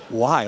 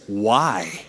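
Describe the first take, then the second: First: "Why?" echoed lower in mock disbelief; incredulous. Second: Low, flat, disbelieving "Why?"; incredulous. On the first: Pastor retells the woman's reaction, mock incredulous. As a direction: replay her stunned question. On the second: Retold or imitated. Woman in line hears he's a pastor, low incredulous. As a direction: imitate her stunned disbelief. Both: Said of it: "Just like that".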